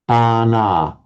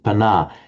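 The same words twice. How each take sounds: First: Both syllables are given equal length. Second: The first syllable is said short. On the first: The speaker calls it right. "You've got to give them equal length" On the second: The speaker calls it wrong. "you'd shorten the previous one to make it pana"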